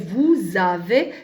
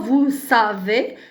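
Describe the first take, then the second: First: The words are linked with a z sound. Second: The words are linked with an s sound. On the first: The speaker calls it right. "S entre deux voyelles, ça se prononce Z" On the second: The speaker calls it wrong. "on ne dit pas"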